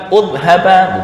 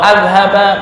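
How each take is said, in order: First: The word begins with a u vowel. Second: The word begins with an a vowel.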